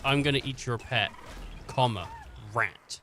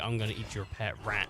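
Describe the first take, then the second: First: There is a pause before rat. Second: It runs straight through without a pause.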